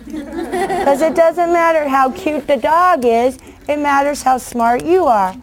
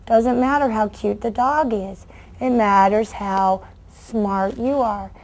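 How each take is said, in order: First: Slow, higher, punching cute and smart; emphatic moral. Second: Quiet lesson. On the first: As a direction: drive the lesson home slowly. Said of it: "moral of the lesson, set slow". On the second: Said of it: "I tell kids this all the time". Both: Shown as a demonstration.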